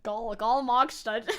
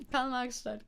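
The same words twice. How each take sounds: First: Slow, loud, laughing mock Saxon; exaggerated Saxony accent, breaking into laughter; broader Saxony accent attempt. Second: Light mock Saxon accent; amateur Saxony accent; Saxony accent attempt. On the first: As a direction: ham up the Saxon vowels, slow and amused. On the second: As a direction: say the town name with a Saxon tinge. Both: Shown as a demonstration. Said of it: "I tried, okay? I tried".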